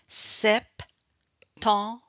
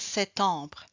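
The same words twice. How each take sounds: First: The P sound is clearly heard in the word. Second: The P sound is left out of the word. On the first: The speaker calls it right. "mais avec septembre, oui" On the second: The speaker calls it wrong. "Je ne peux pas dire septembre"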